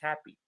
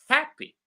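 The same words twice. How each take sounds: First: The stress is on the second syllable. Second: The stress is on the first syllable. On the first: The speaker calls it wrong. "we don't pronounce it in English happy" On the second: The speaker calls it right. "the first syllable, ha, is louder"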